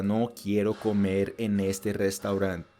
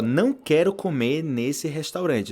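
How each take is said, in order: First: Slow, lower Spanish No quiero comer en este restaurante; Spanish version. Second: Slow and deliberate, every word clear; slow clear Portuguese. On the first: Teacher giving the Spanish version, slow Spanish. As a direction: say it slowly in Spanish for contrast. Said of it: "Ou seja". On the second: Teacher comparing Portuguese to Spanish for students. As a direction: lay out Não quero comer nesse restaurante plainly. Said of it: "olha só". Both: Shown as a demonstration.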